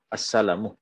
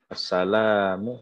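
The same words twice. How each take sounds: First: The l sound is kept short. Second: The l sound is held long. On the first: "lamnya tidak panjang" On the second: "lamnya panjang"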